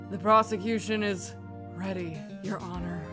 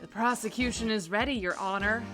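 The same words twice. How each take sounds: First: The voice is pitched deeper. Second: The voice is pitched higher. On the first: "Deeper voice compared to Phoenix" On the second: "I could do a Matt Mercer"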